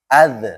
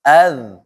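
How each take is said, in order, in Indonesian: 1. Z di akhir berakhir dengan pantulan. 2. Z di akhir berakhir biasa, tanpa pantulan. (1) "jangan az, jangan ya, jangan mantul" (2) "Jadi biasa saja"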